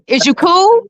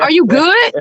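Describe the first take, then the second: First: Slangy J P version, higher; imitating J P. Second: Said in the usual way. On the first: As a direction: toss it off like J P. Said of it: "you had it right". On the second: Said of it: "hold on".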